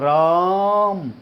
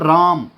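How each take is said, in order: First: The vowel is stretched out long, like calling. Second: The name is said plainly at normal length. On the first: Someone is calling out to the person. "अगर आप आवाज लगाओ लगाओगे तो बोलेगा राम" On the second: The name is simply mentioned. "राम हो जाएगा, simple हो जाएगा"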